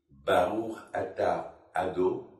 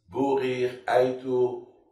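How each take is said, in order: First: It has open a vowels, as in baruch. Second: It has rounded o and diphthong vowels. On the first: "Nous, les Sfaradim, on dit" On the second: "les Ashkenazim, ils disent"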